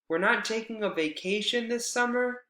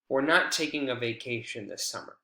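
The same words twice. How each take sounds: First: The voice rises at the end. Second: The voice falls at the end. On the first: It expresses surprise or asks for information. "they'd probably respond with rising intonation" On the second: It simply states a fact. "It's just a statement"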